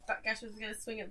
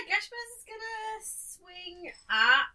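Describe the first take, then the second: First: Said in the usual way. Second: High-pitched, very slow announcement; slow, high wind-up to the attack; drawn-out build-up. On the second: Real, not acted. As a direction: stretch out "swing at" for suspense.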